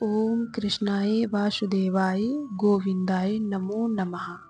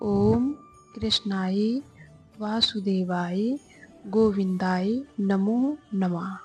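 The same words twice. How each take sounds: First: It is recited at a normal pace. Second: It is recited very slowly.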